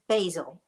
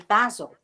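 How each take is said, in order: First: Basil is said with an American accent. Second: Basil is said with a British accent.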